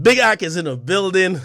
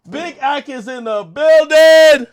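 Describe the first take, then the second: First: Said in the usual way. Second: High, slow, drawn-out holler; hype announcement. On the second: Real, not acted. Streamer opening his stream, drawn-out hype holler. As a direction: stretch it out like an arena entrance.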